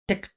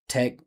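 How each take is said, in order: First: The vowel is cut short and barely heard. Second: The vowel is clearly heard with some length. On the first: The speaker calls it wrong. "It's only consonant sounds" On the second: The speaker calls it right. "you got to hear the vowel sound"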